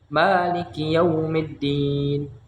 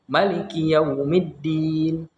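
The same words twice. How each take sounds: First: The first vowel of maliki is long. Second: The first vowel of maliki is short. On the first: This is the Hafs reading. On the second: This is another qiraat reading.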